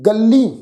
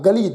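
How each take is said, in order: First: The consonant is doubled with extra stress. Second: The word is said plainly without nasal or doubling. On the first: "गग्गे अखर के उपर जिहड़ा है वो दबा पावांगे जी, थोड़ा बल देवांगे" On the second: "ਗਲੀ ਯਾਨੀ ਕਿ ਤੰਗ ਰਸਤਾ"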